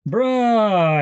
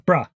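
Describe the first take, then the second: First: The vowel is drawn out long. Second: The vowel is kept short. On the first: The speaker doesn't believe the other person. "it's a longer uh, vowel sound" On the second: The speaker wants someone's attention. "which is like get your attention"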